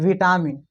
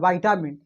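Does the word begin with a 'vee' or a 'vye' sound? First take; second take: vee; vye. First: The first syllable sounds like 'vee'. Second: The first syllable sounds like 'vye'. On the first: This is the Hindi pronunciation. "Hindi में बोले तो विटामिन" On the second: This is the English pronunciation. "English में अगर बोलेंगे तब वाइटामिन होता है"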